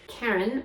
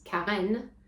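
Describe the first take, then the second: First: The name is pronounced with English sounds. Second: The name is pronounced with French sounds. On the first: "my name" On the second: "becomes Karen if I want French people to understand"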